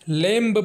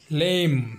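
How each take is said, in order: First: The final b sound is pronounced. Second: The final b sound is silent. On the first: The speaker calls it wrong. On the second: The speaker calls it right.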